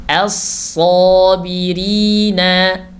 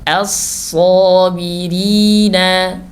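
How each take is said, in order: Both takes have the same delivery.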